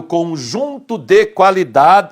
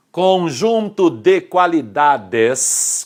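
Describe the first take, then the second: First: "qualidade" with the final S missing; final S left off. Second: "qualidades" drawn out slowly to a long final S; slow, syllable by syllable, "qualidades" ending on S; final S restored. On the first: Real, not acted. Teacher slips while defining the word, "qualidade" without its S. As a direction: say "qualidade" as a singular, ending without S. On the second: Shown as a demonstration. Teacher corrects a slip to students, "qualidades" with clear final S. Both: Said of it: "esqueci do Sinho aqui".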